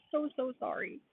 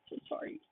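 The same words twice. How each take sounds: First: Said in the usual way. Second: Soft whispered sorry; hushed real apology. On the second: Real, not acted. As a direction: breathe the apology under your breath.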